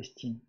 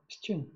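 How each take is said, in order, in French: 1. La deuxième voyelle se prononce comme i. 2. La deuxième voyelle se prononce comme le u français. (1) "Pas estine" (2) "Estune. Pas estine"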